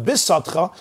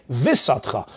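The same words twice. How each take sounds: First: Bisatcha with a hard, stopped B. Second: Visatcha with V replacing the hard B; soft V in visatcha. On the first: Teacher showing the correct letter, hard B in bisatcha. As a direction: give bisatcha its powerful B, not V. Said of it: "instead of bisatcha, I may say visatcha". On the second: Teacher showing a wrong reading, soft V in visatcha. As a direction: loosen the B into a V: visatcha. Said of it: "instead I'm gonna say a vase". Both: Shown as a demonstration.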